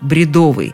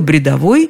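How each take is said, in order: First: The stress is on the second syllable. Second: The stress is on the last syllable. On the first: This is the modern pronunciation. "какой вариант современнее, то это, конечно, бредовый" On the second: This is an old-fashioned pronunciation. "бредовой – это откуда-то из прошлого века"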